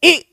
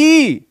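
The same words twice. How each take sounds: First: The vowel is held very briefly. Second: The vowel is held for longer. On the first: "बहुत कम" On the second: "ज्यादा"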